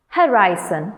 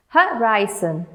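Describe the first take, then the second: First: Said in the usual way. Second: Slow "Horizon" as ho, ri, zon; broken into syllables. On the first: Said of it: "let's pronounce these words once". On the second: Shown as a demonstration. Teacher having learners pronounce along, "Horizon" slow and split. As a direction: sound out each beat of "Horizon". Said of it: "break them into syllables".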